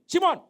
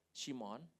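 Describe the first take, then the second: First: Very loud, high shout of a name; stern summons. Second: Low, unforced calling of a name; gentle call. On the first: Jesus imagined as a boss calling Simon, stern shout. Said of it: "Kalau Tuhan bilang begini". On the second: Jesus calls Peter to restore him, gentle. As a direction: call him kindly, without pressure. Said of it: "Jadi panggil pertama sudah enak". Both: Acted.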